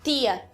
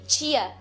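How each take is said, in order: First: The word begins with a plain t sound. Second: The word begins with a ch sound. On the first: "os sons t e ch" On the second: "os sons t e ch"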